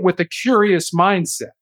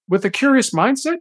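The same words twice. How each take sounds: First: It is said in a plain, matter-of-fact tone. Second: It is said in a curious, questioning tone.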